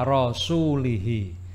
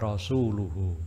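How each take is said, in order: First: The word ends with i vowels. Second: The word ends with u vowels. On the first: The speaker calls it wrong. "dibaca jer ya. Rasul ini dijerkan, dikasrohkan" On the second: The speaker calls it right. "seharusnya ayat ini dibaca"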